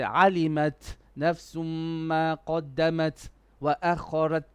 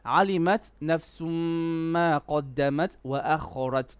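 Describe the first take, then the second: First: The phrase breaks with a pause after each t. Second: The phrase flows smoothly without breaks. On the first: The speaker calls it wrong. "you're kind of pausing every time there's a ta" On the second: The speaker calls it right. "Keep it cool, keep it casual"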